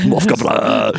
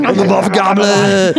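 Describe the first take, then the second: First: Said in the usual way. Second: High, slow, grand self-introduction; dramatic announcer voice. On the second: Pretend. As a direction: announce it like a movie villain. Proclaims himself the Muff Gobbler.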